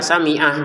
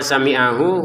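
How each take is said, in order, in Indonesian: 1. Kata itu berakhir pada konsonan 'h' saja. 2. Kata itu berakhir dengan vokal pendek 'hu'. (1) "Kalau enggak sami'ah gitu aja" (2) "kalau kita menggabungnya"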